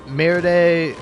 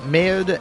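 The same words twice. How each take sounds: First: MERDE said in two syllables, "mair-day"; mispronounced French. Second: Said in the usual way. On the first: Shown as a demonstration. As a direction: say MERDE with a sounded "-day" ending. Says it wrong, then corrects.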